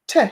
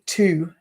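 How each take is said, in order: First: The word is cut to a quick reduced sound. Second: The word has a full, clear vowel. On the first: The speaker calls it right. "we change it to t" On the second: The speaker calls it wrong. "we wouldn't say to normally"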